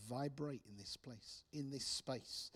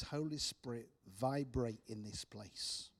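First: Slow, softer murmured prayer; softly praying. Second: Said in the usual way. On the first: Retold or imitated. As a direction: pray it gently over the room. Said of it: "And I began to pray". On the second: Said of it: "the original meaning literally means".

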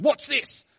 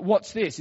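First: High-pitched startled yelp of disbelief; imitating a man freaking out; freaked out. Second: Said in the usual way. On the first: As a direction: jump back in shock, voice shooting way up. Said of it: "jumped back and freaked out and goes". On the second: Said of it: "We didn't say it like an Australian".

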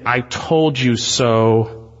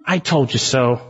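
First: Drawn-out taunt. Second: Said in the usual way. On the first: Retold or imitated. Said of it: "is saying". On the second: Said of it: "Jonah's saying, basically".

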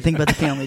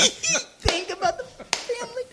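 First: Said in the usual way. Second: Repeats the line while laughing, slow. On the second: Retold or imitated. Repeating his own line to friends, laughing. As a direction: cracks up saying it again.

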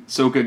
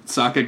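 First: Sokka said "SOAK-uh"; movie pronunciation. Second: Sokka said "SOCK-uh"; cartoon pronunciation. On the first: Host corrects himself to the film's name, Sokka as "SOAK-uh". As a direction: say Sokka with a long O. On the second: Host recapping the film slips, Sokka as "SOCK-uh". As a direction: say Sokka with a short open first vowel. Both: Real, not acted. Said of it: "correct pronunciations for the movie".

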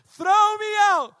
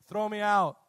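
First: High, very loud, stretched yell; shouting over wind. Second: Said in the usual way. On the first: Acted. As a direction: holler it slowly through the storm. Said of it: "You have to shout".

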